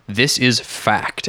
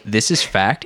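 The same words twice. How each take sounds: First: Slow, firm statement of fact; flat statement. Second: Light British accent; lightly British statement of fact. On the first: Retold or imitated. Host imitating co-host who just says it out, slow firm statement. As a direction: state it slowly, leaving no room for doubt. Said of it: "they just make a statement". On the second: Shown as a demonstration. Host showing how fact sounds smarter, light British accent. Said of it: "in a British accent".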